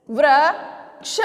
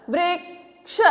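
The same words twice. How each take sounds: First: Slow sounding out. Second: A quiet, quick वृक्ष; soft normal pace. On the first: Teacher sounding out वृक्ष slowly for children. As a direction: say वृक्ष very slowly, drawing out वृ before क्ष. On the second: Teacher repeating वृक्ष softly after the slow version. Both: Shown as a demonstration. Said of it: "अब इससे क्या शब्द बनाए मैंने?".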